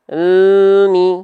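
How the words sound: The l sound flows straight into mi. The speaker calls it right. "antara al dengan mi masih ada bunyi"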